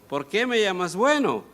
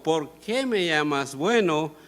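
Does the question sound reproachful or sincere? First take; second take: reproachful; sincere. First: It is said as a reproach. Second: It is said as a sincere question.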